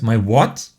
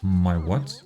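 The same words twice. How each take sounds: First: Loud, incredulous outburst, rising at the end; taken aback, much louder; startled question. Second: Low, puzzled question with a rising end. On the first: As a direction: burst out in disbelief. Startled reaction in acted dialogue. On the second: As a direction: ask it low and bemused, lifting at the end. Puzzled reaction in acted dialogue. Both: Acted.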